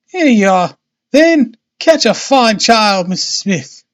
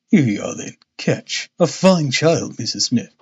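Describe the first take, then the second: First: High voice of Missus Smith, by mistake; wrong character's voice. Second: Holmes. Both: A narrator's reading. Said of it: "that was supposed to be him".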